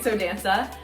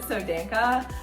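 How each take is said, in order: First: The last syllable starts with an s sound. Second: The last syllable starts with a k sound. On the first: This is how the speaker says it. "but I say" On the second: This is how some other people say it. "some people pronounce it"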